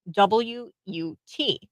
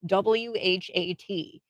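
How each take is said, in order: First: W U T read as three slow separate letters; spelled out letter by letter. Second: W H A T read as four slow separate letters; spelled out letter by letter. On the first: Spelling out her misspelling of the word what, slowly. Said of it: "she spelt the word what". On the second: Spelling the word what correctly for listeners, slowly. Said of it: "how to spell the word". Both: Shown as a demonstration.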